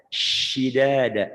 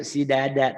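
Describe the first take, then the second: First: Slow "Shidada" with a heavy sh; broad hushing sh in "Shidada"; big sh sound. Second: Thin s at the start of "Sidada"; narrow, plain s in "Sidada"; small s sound. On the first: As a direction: open "Shidada" on a long, airy sh. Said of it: "sinnya gede itu". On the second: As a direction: say "Sidada" with a light s, not sh. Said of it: "iya pasti kecil". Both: Shown as a demonstration.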